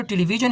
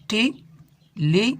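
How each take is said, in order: First: Said in the usual way. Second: "television" slowly broken into टे, ली, वि, जन; syllable by syllable. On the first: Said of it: "किसी लफ्ज़ को कितनी parts में". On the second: Shown as a demonstration. Teacher showing syllables in "television", slowly syllable by syllable. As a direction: say "television" in four separate beats with pauses. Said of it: "किसी लफ्ज़ को कितनी parts में हम divide कर सकते हैं".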